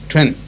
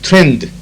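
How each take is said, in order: First: The final D sound is dropped. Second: The final D sound is clearly pronounced. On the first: "That last D cannot be heard" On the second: "T R E N D"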